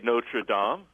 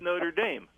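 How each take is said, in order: First: It is said with a French-style pronunciation. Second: It is said with an American-style pronunciation. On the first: This is how outsiders say the name. The speaker calls it wrong. "they don't say Notre Dame" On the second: This is how the school's own people say it. The speaker calls it right. "It's Notre Dame"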